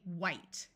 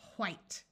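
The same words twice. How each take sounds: First: It starts with a plain w, no h sound. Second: It starts with an h sound before w.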